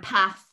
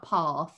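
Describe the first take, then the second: First: It is said in a northern English accent. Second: It is said in a southern English accent. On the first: "you're northern because you say ... path" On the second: "and not path"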